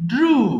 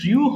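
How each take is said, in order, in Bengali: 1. 'oo' স্বরধ্বনি সরাসরি 'r'-এর পরে আসে। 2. 'y' গ্লাইড 'oo' স্বরধ্বনির আগে আসে। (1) "এটা হবে ড্রু" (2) "এটা কিন্তু ড্রিউ হবে না"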